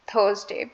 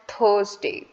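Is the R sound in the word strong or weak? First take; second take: weak; weak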